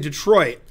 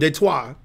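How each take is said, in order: First: It is said the way locals say it. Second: It is said with a French pronunciation. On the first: "if you're from Detroit, you say Detroit" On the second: "the correct pronunciation"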